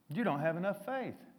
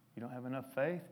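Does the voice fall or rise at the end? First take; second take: fall; rise. First: The voice falls at the end like a statement. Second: The voice rises at the end like a question. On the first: It states that they lack faith. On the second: It asks whether they lack faith.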